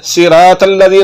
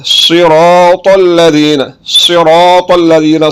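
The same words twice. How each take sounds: First: सिरातल्लज़ीना with light s and t, 'siraatal'; wrong thin letters. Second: Slow सिरातल्लज़ीना with thick s and t; heavy saad and to. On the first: Teacher warning learners off common mistakes, thin letters. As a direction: keep सिरातल्लज़ीना fine and unrounded. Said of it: "इन गलतियों से बचना है". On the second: Teacher modelling the correct reading, slow heavy letters. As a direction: stretch सिरातल्लज़ीना with full, rounded start. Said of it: "इन दोनों हरफों को मोटा करके पढ़ना है". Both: Shown as a demonstration.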